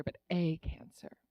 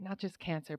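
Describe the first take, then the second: First: "but a cancer" with the weight on "a"; stress on A. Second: Said in the usual way. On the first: Shown as a demonstration. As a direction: give "a" its own beat before "cancer".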